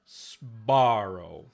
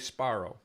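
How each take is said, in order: First: A hissing s runs straight into voiced b. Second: A hissing s runs into a voiceless p. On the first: "they don't say Sbarro" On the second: "Sparrow with a with a voiceless"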